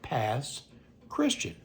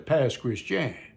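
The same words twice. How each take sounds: First: Christian is said like the plain English word. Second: Christian is said with a French-style pronunciation. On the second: "Kind of got a little Frenched up"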